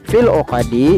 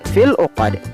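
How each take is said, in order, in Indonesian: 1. Kata terakhir tetap berakhir dengan vokal penuhnya. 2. Kata terakhir berakhir pada konsonan mati.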